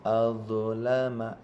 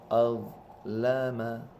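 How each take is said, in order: The two takes are said the same way.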